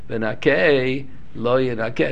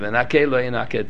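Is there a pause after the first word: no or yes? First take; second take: yes; no. First: There is a pause after the first word. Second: The words run together without any pause. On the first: It is read as two separate phrases. The speaker calls it right. "he should pause in between" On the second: It is read as one phrase. The speaker calls it wrong. "lay together, v'nake lo yinake together"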